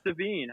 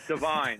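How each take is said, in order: First: The last syllable sounds like 'veen'. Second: The last syllable sounds like 'vine'. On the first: The speaker calls it wrong. "I said his name wrong. ... I'm just thinking Levine here" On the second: The speaker calls it right. "of course your name's Divine"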